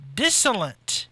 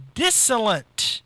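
First: The word is said with three syllables. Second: The word is said with three syllables.

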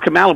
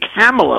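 First: The name does not rhyme with Pamela. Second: The name rhymes with Pamela. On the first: The speaker calls it wrong. "I always thought it was Kamala" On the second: The speaker calls it right. "it's actually Kamala, like Pamela"

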